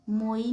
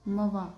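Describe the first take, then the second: First: The vowel sounds like 'oy', as in 'boy'. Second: The vowel sounds like 'wa', as in 'water'. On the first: The speaker calls it wrong. "इसको हम मोई नहीं पढ़ेंगे" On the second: The speaker calls it right. "इसको हम पढ़ेंगे मवा"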